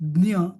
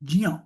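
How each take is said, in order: First: The cluster is pronounced like d-n-y. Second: The cluster is pronounced like j plus y. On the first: The speaker calls it wrong. "मराठीमध्ये शक्यतो आपण डी एन वाय म्हणतो, ... ते पण चुकीचं आहे" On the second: The speaker calls it right. "तो खरा उच्चार काय पाहिजे, ज अधिक य"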